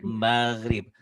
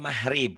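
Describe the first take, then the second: First: The middle consonant is a soft throaty gh. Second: The middle consonant is said as an h. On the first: The speaker calls it right. "Padahal maghrib" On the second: The speaker calls it wrong. "Kalau orang Jawa mahrib kan G-nya ke H"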